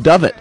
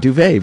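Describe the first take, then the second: First: It is said like 'dovet', as it looks. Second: It is said like 'duvet', ending in 'vay'. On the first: The speaker calls it wrong. "if you would have read that the way you normally read it, it would have been a dovet" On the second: The speaker calls it right. "But yeah, duvet, very good"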